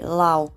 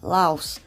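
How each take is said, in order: First: The word ends on a vowel, no s. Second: The word ends with an s sound. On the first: This is how people in the country say it. "in the country Lao, they pronounce it Lao" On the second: This is how English speakers say it. "in English we pronounce it with the S"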